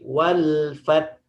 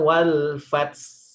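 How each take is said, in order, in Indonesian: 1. Kata terakhir berakhir dengan bunyi h yang lembut. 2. Kata terakhir berakhir dengan bunyi s. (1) "tapi wal fat" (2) "Bukan wal fats"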